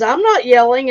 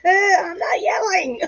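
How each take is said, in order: First: Said in the usual way. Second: High, drawn-out mock yell through laughter; slow, squealed comic protest. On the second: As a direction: imitate an indignant all-caps yell, cracking up. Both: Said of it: "it was in all caps".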